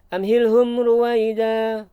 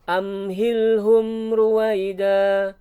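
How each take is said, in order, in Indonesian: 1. Frasa itu dibaca cepat dan tergesa-gesa. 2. Frasa itu dibaca pelan dan tenang. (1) "Tidak dibaca amhilhum ruwaida. Bukan begitu" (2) "tapi tenang"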